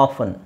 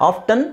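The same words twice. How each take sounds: First: "ಆಫನ್" as "off-un"; silent T. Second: "ಆಫ್ಟನ್" with clear T, "off-tun"; sounded T. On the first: Teacher contrasting foreigners' two forms, silent T. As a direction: drop the T from "ಆಫನ್". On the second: Teacher contrasting foreigners' two forms, sounded T. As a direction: keep the T in "ಆಫ್ಟನ್". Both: Shown as a demonstration. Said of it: "ಈ ಎರಡು ಪದನೂ ಇದೆ".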